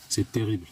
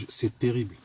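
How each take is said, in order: Both takes have the same delivery.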